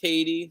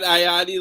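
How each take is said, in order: First: The name sounds like the country 'Haiti'. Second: The name sounds like 'ah-yah-dee'. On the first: The speaker calls it right. "It's pronounced Haiti, like the country" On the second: The speaker calls it wrong. "it's not Ayadi like I keep saying"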